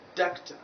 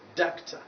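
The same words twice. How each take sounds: Both takes have the same delivery.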